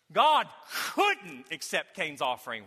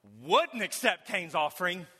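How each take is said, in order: First: Couldn't punched, slow and falling; slow, land hard on couldn't; stress on couldn't. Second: Wouldn't leaned on slowly with a rise; slow, hit the word wouldn't; stress on wouldn't. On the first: Pastor correcting the contrast for the church, couldn't stressed. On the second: Pastor setting up a contrast for the church, wouldn't stressed. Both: Shown as a demonstration. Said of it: "let me say it a different way".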